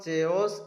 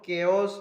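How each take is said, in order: First: The word begins with a ch sound. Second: The word begins with a k sound. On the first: The speaker calls it wrong. "ସଠିକ୍ ଉଚ୍ଚାରଣ ଚେଓସ୍ କି ଚାଓସ୍ ହେବ ନାହିଁ" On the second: The speaker calls it right. "ଏହାର ସଠିକ୍ ଉଚ୍ଚାରଣ କେଓସ୍ ହେବ"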